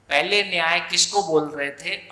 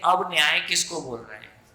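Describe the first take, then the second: First: पहले stressed with a rising tune; stress on before. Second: अब stressed at the start of the question; stress on now. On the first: Teacher contrasting past and present meaning, stressing पहले. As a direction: lean on पहले, then lift the end as a question. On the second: Teacher asking the class about the new meaning, stressing अब. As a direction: hit the word अब against the earlier पहले. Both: Shown as a demonstration.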